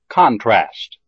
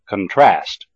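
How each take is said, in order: First: The stress is on the first syllable. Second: The stress is on the second syllable. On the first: It is used as a noun. "the first syllable of the noun has primary stress" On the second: It is used as a verb. "the second syllable of the verb has primary stress"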